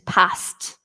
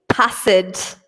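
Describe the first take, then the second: First: The ending is a short T sound. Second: The ending is said as an extra syllable. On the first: The speaker calls it right. "It makes kind of a T sound at the end" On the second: The speaker calls it wrong. "So we don't say passed"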